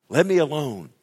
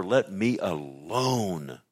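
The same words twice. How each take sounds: First: Louder, higher, insistent outburst; forceful plea. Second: Drawn-out, measured plea; slow plea. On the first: Preacher as Job talking to God, loud insistent plea. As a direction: burst out with the demand. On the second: Preacher as Job talking to God, slow drawn-out plea. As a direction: stretch each word, lingering on the last. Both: Acted.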